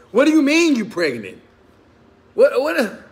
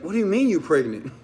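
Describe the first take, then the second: First: Much higher, louder, panicked disbelief; shocked outburst. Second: Said in the usual way. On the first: Retold or imitated. A man reacting to news of another baby, in a shocked yell. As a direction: yelp it like the floor just dropped out. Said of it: "You ever said that?". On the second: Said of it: "I was like".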